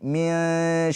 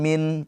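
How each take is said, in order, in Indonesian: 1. Bunyi n tersembunyi dan sengau. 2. Bunyi n diucapkan penuh dan jelas. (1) "tapi min sya. Mendekat ke huruf sya" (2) "Jangan min"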